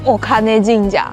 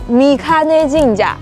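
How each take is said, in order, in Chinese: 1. 这个名字读作 okane jinja。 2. 这个名字读作 mikane jinja。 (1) "可能会下意识把它读成お金神社，但其实不是" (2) "它读みかね神社"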